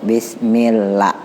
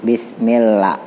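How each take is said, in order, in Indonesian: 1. Vokal pada 'lah' dibaca satu ketukan. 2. Vokal pada 'lah' dibaca satu ketukan.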